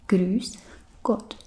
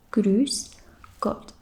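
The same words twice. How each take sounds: The two takes are said the same way.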